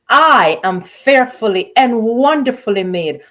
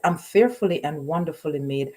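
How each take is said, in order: First: It is said boldly, with confident attitude. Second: It is said casually, without emphasis.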